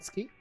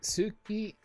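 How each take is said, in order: First: The u vowel is dropped. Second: The u vowel is clearly pronounced. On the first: "is it ski" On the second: "that feels so wrong"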